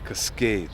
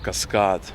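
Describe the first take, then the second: First: It is pronounced the English way. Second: It is pronounced the Russian way.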